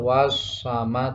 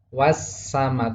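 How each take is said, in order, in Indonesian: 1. Bunyi s itu tebal dan berat. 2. Bunyi s itu tipis dan ringan. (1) "Tidak boleh baca tebal" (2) "Bacanya harus tipis"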